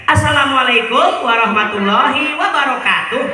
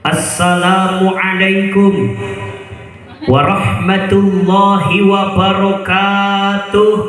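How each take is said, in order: First: It is delivered like opening a village announcement. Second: It is delivered grandly, like opening a sermon. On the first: The speaker is about to make an announcement. "Pak Kadus itu mau pengumuman" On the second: The speaker is about to preach. "pidato yang gagah? Gini. ... itu mau ceramah"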